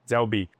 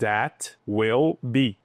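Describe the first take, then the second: First: The words run together quickly as one contraction. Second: Each word is said separately and fully.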